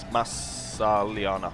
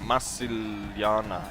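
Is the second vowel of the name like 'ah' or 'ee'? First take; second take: ah; ee. First: The second vowel sounds like 'ah'. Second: The second vowel sounds like 'ee'. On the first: The speaker calls it right. "but it's Massaliana" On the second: The speaker calls it wrong. "Massiliana is what I usually say"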